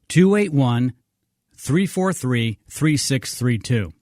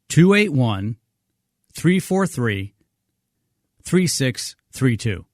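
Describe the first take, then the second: First: The number is read at normal pace. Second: The number is read more slowly.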